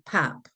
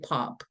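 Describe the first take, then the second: First: The word is said with the Michigan vowel. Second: The word is said with the Oregon vowel. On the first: "like I used to hear in Michigan" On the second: "I live in Oregon now. Some people say pop"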